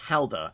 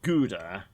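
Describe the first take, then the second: First: The word is said in a foreign-sounding way. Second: The word is said in a familiar English way. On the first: The speaker calls it right. "It's pronounced Helda" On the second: The speaker calls it wrong. "I've always known it as Gouda"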